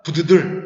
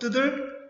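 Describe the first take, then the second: First: It starts with a separate B sound. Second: It starts with a doubled, tense T sound. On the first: The speaker calls it wrong. "처음 보는 친구들 어떻게 읽는다? 부드들, 부드들 이렇게 읽습니다" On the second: The speaker calls it right. "뒤에를 두 배로 읽습니다. 그래서 뜨들"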